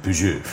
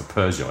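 First: "Peugeot" said the French way, puh-ZHO; French-style "Peugeot" with no English R; native French pronunciation. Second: "Peugeot" said the British way, PUR-zho; anglicised "Peugeot", PUR-zho; anglicised pronunciation. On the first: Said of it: "correct pronunciation from their native country". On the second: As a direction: say "Peugeot" as an English speaker would. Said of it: "not the way we would say it". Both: Shown as a demonstration.

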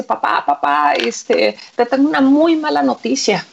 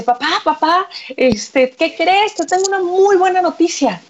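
First: Understated mock distress, little change of voice; mildly acted desperation. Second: High-pitched, excited son voice; acted euphoria. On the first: Son brings his father very bad news, mildly desperate. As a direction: break bad news with a touch of urgency. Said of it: "llega desesperado, le dice". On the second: Son tells his father great news, acted euphoria. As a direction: burst in eagerly with good news. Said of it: "más bien eufórico con el papá".

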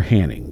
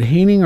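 First: Hanning said HAN-ning, first vowel as in "hand"; Hanning with short a. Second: Hanning with a different first vowel from short-a HAN-ning; alternative pronunciation of Hanning. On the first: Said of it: "I think it's Hanning". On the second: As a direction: try Hanning the other way, likely long-a HAY-ning. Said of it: "Is it Hanning or Hanning". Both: Shown as a demonstration.

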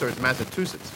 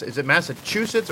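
First: Massachusetts pronounced "massa-TOO-sets". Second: Massachusetts pronounced "massa-CHOO-sets". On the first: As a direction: say Massachusetts with "too" instead of "choo". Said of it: "There's a different accent up there". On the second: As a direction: say Massachusetts with a "choo" middle syllable. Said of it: "How do you say Massachusetts". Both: Shown as a demonstration.

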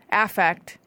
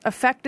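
First: "Affect" with a clear short A, AFF-ekt; affect, verb. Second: "Affect" with an unstressed "uh" start, uh-FEKT; effect, noun. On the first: Grammar explainer giving the verb, "Affect" said AFF-ekt. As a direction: open "Affect" on the vowel of cat. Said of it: "A F F E C T". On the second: Grammar explainer giving the noun, "Affect" said uh-FEKT. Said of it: "pronounced the same way, is a verb". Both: Shown as a demonstration.

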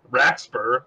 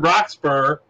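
First: "Raxburgh" with an A sound in the first syllable; alternative pronunciation. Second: Said in the usual way. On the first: Shown as a demonstration. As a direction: try "Raxburgh", opening with "racks". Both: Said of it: "I think is how you pronounce his name".

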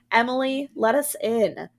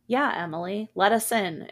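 First: Louder, higher, insistent demand; narrated menace, pushed louder and higher; menacing demand. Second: Mildly warm, gentle coaxing; a touch of gentle reassurance. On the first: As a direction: demand to be let in, raised voice. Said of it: "Annie's voice became low and guttural". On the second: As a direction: coax gently through the door, understated. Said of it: "warm and gentle". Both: A narrator's reading.

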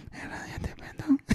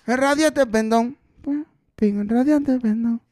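First: Susurrado, sin voz, lento; cántalo en un susurro, como eco; susurro cantado. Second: Sung, cantado lento y solemne; sung, alarga radiante pendón como final de himno; sung, coro cantado. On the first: (eco susurrado del final del coro) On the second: (sung, canto lento del final del coro) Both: Shown as a demonstration. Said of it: "ese es el corito".

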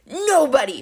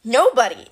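First: Mildly acted angry monster cry; monster yelling back. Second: Short, louder mock yell; moderately raised voice, punched out; yelled retort. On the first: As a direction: echo it back in outrage, pitched up. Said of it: "Polyphemus yelled back". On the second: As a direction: throw it back as a defiant call. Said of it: "Annabeth yelled". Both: A narrator's reading.

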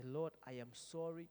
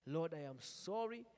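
First: Prayer. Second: Louder prayer. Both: Shown as a demonstration. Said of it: "Just say".

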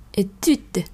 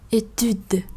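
First: "étude" with a French u, rising a little and then falling; correct étude. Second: "étude" said the wrong way, flat and falling. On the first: Teacher to students, giving the correct étude. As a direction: model the right "étude". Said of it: "mà thường chúng ta sẽ đọc là étude". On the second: Teacher to students, showing the wrong étude. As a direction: demonstrate the mistake on "étude". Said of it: "hay là không đọc étude". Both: Shown as a demonstration.

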